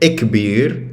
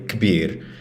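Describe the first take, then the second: First: An extra vowel comes before the opening consonants. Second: The word starts directly with the consonant cluster. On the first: This speaker adds a vowel before initial clusters. "So one would say ikbir" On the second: This speaker pronounces initial clusters without adding a vowel. "the other would say kbir"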